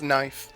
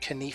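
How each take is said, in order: First: The initial k is silent. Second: The initial k is pronounced aloud. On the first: This is how the word is normally said. The speaker calls it right. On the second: This imitates how a Spanish speaker says it. The speaker calls it wrong.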